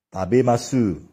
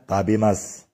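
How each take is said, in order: First: The final u is clearly voiced. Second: The final u is dropped.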